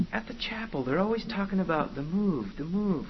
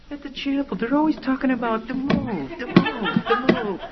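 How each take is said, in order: First: Softer, slightly raised coaching voice; feed the line to a trainee, quietly mocking; coaching demon boss. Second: High, goofy over-acted parroting; bumbling junior demon. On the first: Boss tells Junior what to whisper, coaching. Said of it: "says to Junior". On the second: Rookie demon tries the line on the girl, bumbling. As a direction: parrot it much higher, louder by the end. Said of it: "Junior goes up and he goes".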